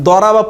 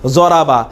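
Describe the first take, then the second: First: The first consonant is a D sound. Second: The first consonant is a Z sound. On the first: "দরাবা পড়তামই না" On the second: "জোয়া দিয়ে, অর্থাৎ জরাবা"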